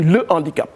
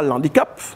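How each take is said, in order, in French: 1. L'article se prononce en entier devant le mot. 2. L'article s'élide dans le mot. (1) "on dit le handicap" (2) "On ne dit pas l'handicap"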